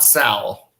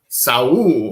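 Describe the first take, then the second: First: The vowel sounds like the 'a' in pal. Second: The vowel sounds like the 'a' in hall. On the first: The speaker calls it wrong. "not Sal" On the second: The speaker calls it right. "I guess his name is Saul"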